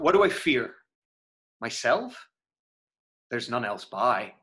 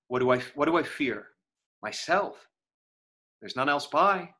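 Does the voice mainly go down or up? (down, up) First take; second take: down; up. First: The pitch goes down through the lines. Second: The pitch goes up through the lines. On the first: "And that's tone. I went down" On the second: "That's tone going up"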